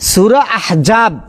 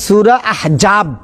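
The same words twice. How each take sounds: Both takes have the same delivery.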